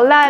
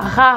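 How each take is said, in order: First: The consonant is a plain L sound. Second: The consonant is a throaty French R. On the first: The speaker calls it right. "Il vaut mieux dire la, li, lo, lé, lo" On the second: The speaker calls it wrong. "on ne dit pas ra, ri, rou, ré, ro, ne faites surtout pas ça"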